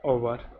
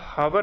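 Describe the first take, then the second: First: The word begins with a vowel sound. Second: The word begins with an h sound. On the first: The speaker calls it right. "इसको आप कहते हो क्या? ओवर" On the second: The speaker calls it wrong. "इसको आप हावर ना कह के"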